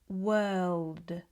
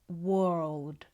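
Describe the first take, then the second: First: The vowel is an 'er' sound. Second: The vowel is an 'or' sound. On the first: The speaker calls it right. "It's more of an er sound. We would say" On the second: The speaker calls it wrong. "These words are not pronounced with an or sound. It's not"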